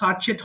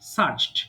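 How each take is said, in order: First: The word ends with an added et syllable. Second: The word ends in a plain t sound.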